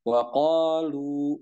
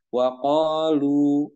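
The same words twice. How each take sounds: No difference in how they are said.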